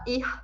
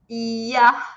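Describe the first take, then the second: First: The final r is said as a consonant. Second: The final r is said like an a vowel. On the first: The speaker calls it wrong. "A gente não fala ir" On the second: The speaker calls it right. "mas sim ia"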